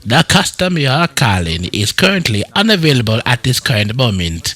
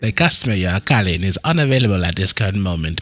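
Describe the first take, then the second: First: It is said in a posh Jamaican accent. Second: It is said in a plain voice.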